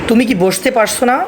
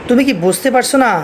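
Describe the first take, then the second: The two takes are said the same way.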